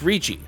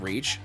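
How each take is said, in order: First: The word is said as two syllables. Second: The word is said as one syllable. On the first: The speaker calls it right. "a more accurate pronunciation is Reachy" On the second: The speaker calls it wrong. "occasionally mistranslated to reach"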